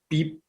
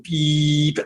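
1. Das beep ist kurz und abgehackt. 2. Das beep ist lang und gezogen. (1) "ähnlich wie beim EKG, das funktioniert beep" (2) "Dieser langgezogene Ton"

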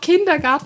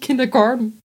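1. Das Wort wird mit deutschen Lauten ausgesprochen. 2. Das Wort wird mit englischen Lauten ausgesprochen. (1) "dann musst du es auch auf Deutsch aussprechen" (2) "und nicht"

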